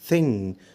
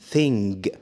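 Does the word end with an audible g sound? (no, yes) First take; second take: no; yes. First: The final g is not sounded. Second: The final g is clearly sounded. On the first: The speaker calls it right. "قول" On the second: The speaker calls it wrong. "ما تقولش"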